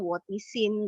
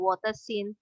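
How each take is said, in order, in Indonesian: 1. Suku kata tengah diucapkan di. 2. Suku kata tengah diucapkan de. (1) "sekarang nggak ada lagi sih bilangnya wotisin" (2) "bulan mewakili hati saya"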